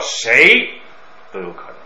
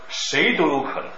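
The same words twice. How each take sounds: First: The phrase is read with a pause inside. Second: The phrase is read without a pause inside. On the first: The speaker calls it wrong. "不要谁都有可能，不是这样划分" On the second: The speaker calls it right. "就是不要停顿"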